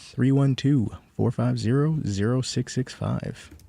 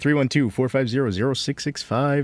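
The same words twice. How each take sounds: First: The number is said more slowly and carefully. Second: The number is said at normal, quicker speed.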